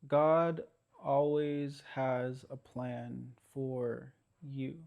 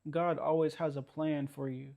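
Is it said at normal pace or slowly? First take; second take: slowly; normal pace. First: It is said more slowly. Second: It is said at a normal pace.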